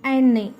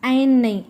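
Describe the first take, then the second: Both takes have the same delivery.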